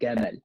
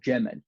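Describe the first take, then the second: First: It starts with a hard g sound. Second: It starts with a j sound. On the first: "in Egypt, they'll say Gamal. So anytime there's a jim, they'll say g" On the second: "the proper Fusha pronunciation ... is Jamal"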